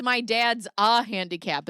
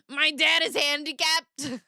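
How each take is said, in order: First: "a" set apart in "My dad's a handicap"; corrected quote with stressed A. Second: High, drawn-out catchphrase; mock announcement. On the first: Retold or imitated. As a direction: quote it firmly, leaning on "a handicap". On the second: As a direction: belt the catchphrase out slowly and high. Catchphrase, then corrects her own quote.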